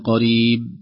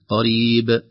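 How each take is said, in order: First: The final b is swallowed without any bounce. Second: The final b is released with a clear bounce. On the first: The speaker calls it wrong. "لو لم نقلق الباء لم تظهر، لا نقول قريب" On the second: The speaker calls it right. "بالتقاء الشفتين هكذا قريب"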